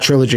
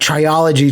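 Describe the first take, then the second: First: The word has no extra vowel, three syllables. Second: The word has an extra vowel, four syllables. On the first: The speaker calls it right. "someone out on the playground said trilogy" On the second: The speaker calls it wrong. "I still mispronounce words all the time"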